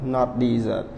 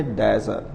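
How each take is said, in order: First: "desert" said di-ZERT, like the sweet; dessert with stress on -SERT. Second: "Desert" said DEZ-ert, stress on the first syllable. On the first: Teacher contrasting "desert" as di-ZERT, the sweet. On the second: Teacher modelling "Desert" as DEZ-ert for students. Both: Shown as a demonstration.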